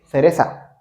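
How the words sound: It is said in a Spain Spanish accent. "but they say cereza"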